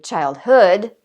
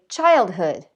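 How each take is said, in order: First: The stress is on the second syllable. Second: The stress is on the first syllable. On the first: The speaker calls it wrong. "We don't say childhood" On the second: The speaker calls it right. "we say childhood"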